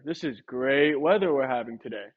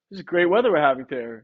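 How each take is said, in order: First: Lower, dull and unconvinced; flat take. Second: Bright, upbeat delivery of the line; upbeat take. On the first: Trainer demos to a homeowner, flat and doubtful. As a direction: let the line fall flat. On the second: Trainer demos to a homeowner, upbeat and sure. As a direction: sell it as good news. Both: Shown as a demonstration. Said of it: "if I say it in two different ways using my tonality".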